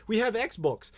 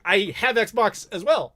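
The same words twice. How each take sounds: First: High, lightly put-on puzzled Brit; mock-confused local offering what they have; confused Brit impression. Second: Said in the usual way. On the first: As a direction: imitate a baffled British vendor, pitched up. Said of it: "They're so confused. Like". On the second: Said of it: "And I'm just like".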